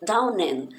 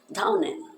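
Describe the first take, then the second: First: Down and run together as dawn-en; teacher linking the words; linked down and. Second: Down and with the D barely heard, N carried over; teacher showing the silent D; swallowed D. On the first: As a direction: join the N to the and. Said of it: "Esse N do final, ele se junta". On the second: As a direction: let the D not come out. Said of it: "como se você fosse falar o D e ele não saísse". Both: Shown as a demonstration.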